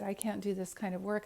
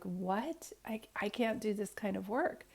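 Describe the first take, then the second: First: Said in the usual way. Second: Breathless, horrified whisper; barely voiced, stunned disbelief; shocked whisper. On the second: Telling the lady she can't do this work, in a shocked whisper.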